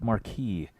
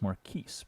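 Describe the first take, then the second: First: The final S sound is silent. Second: The final S sound is heard. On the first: The speaker calls it wrong. "at first glance it was like Marquis" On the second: The speaker calls it right. "the S is not silent"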